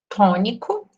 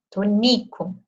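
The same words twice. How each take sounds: First: The stress is on the first syllable. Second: The stress is on the second syllable. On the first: It is the word meaning tonic or stressed. "O acento aqui no to" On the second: It is an affectionate diminutive of a name. "pronunciando mais forte essa sílaba aqui do meio, o ni"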